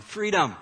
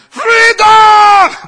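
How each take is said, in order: First: Raised, higher-pitched retold cry; half-strength rallying call; mild mock yell. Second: Put-on very high, full-out yell in a Scottish accent; huge drawn-out Scottish war cry; Scottish battle shout. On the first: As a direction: echo a battle yell without fully shouting. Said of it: "and yelling". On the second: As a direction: bellow a rallying cry like a Scottish warrior. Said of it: "you shout in your best Scottish accent".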